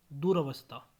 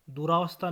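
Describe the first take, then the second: First: Said in the usual way. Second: दुरावस्था with long रा; mispronunciation. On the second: Shown as a demonstration. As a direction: say du-RAA-vastha in दुरावस्था. (दुरावस्था, लंबा रा) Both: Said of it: "नहीं".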